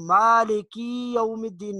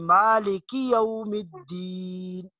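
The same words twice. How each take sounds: First: The vowel after the k is drawn out long. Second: The vowel after the k is kept short. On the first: The speaker calls it wrong. "नहीं पढ़ना" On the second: The speaker calls it right. "बल्कि"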